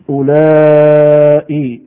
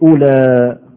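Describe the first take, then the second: First: It ends with a long vowel and a hamza. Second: It ends with a short vowel, without a hamza. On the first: "بالمد" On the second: "يبقى بالقصر"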